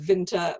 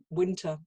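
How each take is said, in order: First: The word begins with a V sound. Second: The word begins with a W sound. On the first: The speaker calls it wrong. "I read it as winter, and of course I said winter" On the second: The speaker calls it right. "W was pronounced the way that we pronounce the W"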